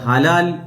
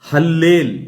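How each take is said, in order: First: It is said with a single l and long 'a'. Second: It is said with a doubled l and 'e' vowel. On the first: The speaker calls it wrong. "അല്ലാതെ ഹലാൽ എന്നല്ല വായിക്കേണ്ടത്" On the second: The speaker calls it right. "ഹല്ലേൽ എന്ന് വേണം വായിക്കാൻ"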